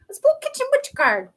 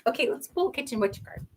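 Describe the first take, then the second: First: "Let's pull kitchen witch card" sung out high and bright; sing-song high call. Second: Said in the usual way. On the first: Shown as a demonstration. Chanting to the viewers as the card is pulled, sing-song.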